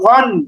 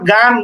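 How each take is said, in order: First: The vowel is a heavy, rounded 'o' sound. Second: The vowel is an open, long 'aa' sound. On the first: The speaker calls it right. "বরং গইন দুই জবর গন" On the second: The speaker calls it wrong. "গইন দুই জবর গান এমন না"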